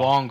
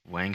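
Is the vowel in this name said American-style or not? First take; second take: not American; American. First: The vowel is rounder and less American, like 'wong'. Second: The vowel is said the American way, as in 'bang'. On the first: The speaker calls it right. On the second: The speaker calls it wrong. "I'm saying Wang like an American"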